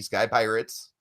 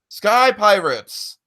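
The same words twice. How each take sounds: First: It is said in an ordinary natural speaking voice. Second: It is said in a put-on old radio announcer voice. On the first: "I'll stop now" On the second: "in my classic nineteen thirties radio announcer voice"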